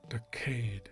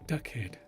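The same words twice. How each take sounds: First: The stress is on the second syllable. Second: The stress is on the first syllable. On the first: "the emphasis is not on the first syllable, da. So that means it's on the second syllable, kade" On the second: "It's the first syllable"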